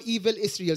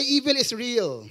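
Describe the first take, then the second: First: Said in the usual way. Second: Slow, emphatic repeat for the crowd; call and response. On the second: Shown as a demonstration. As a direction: say it back slowly, leaning on evil. (mabagal at diin na pag-uulit para sa madla)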